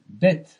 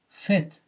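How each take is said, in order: First: It begins with a hard b sound. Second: It begins with a soft v sound. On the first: "the next word begins with a bet" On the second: "you pronounce it as fet"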